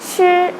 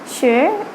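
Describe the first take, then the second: First: The pitch stays level and high. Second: The pitch rises like a question. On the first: "the first tone was sure" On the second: "the second sure"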